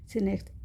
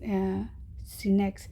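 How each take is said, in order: First: Said in the usual way. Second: सिनेक्स spelled out slowly, each syllable drawn out; slow careful naming. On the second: Shown as a demonstration. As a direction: say सिनेक्स slowly and clearly, like dictating a name. (सिनेक्स को धीरे-धीरे, एक-एक अक्षर साफ़ बोलें)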